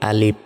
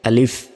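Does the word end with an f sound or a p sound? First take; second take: p; f. First: The word ends with a p sound. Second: The word ends with an f sound. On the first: The speaker calls it wrong. "আমরা অনেকে বলি আলিফ, অর্থাৎ সরিয়া লয় রস্যই শেষে বাংলার পয়ের মতো উচ্চারণ করি" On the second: The speaker calls it right. "শেষে বাংলা ফ এর মতো উচ্চারণ হবে"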